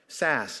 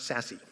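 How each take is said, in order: First: The name ends with a plain 's' sound. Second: The name ends with an added 'ee' sound. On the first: The speaker calls it right. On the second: The speaker calls it wrong. "not Sassy"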